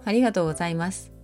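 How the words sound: The voice sounds contemptuous. "軽蔑、"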